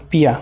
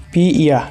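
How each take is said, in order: First: "পিয়া" run together as one word, piya; joined sound. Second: "পি ইয়া" said as two separate parts, pi, then iya; separate syllables. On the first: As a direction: blend pi and iya into "পিয়া". ("পিয়া" একসাথে যুক্ত করে উচ্চারণ) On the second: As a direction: keep "পি" and "ইয়া" apart. ("পি ইয়া" আলাদা আলাদা করে উচ্চারণ) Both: Shown as a demonstration. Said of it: "উচ্চারণটা একটু দেখাই".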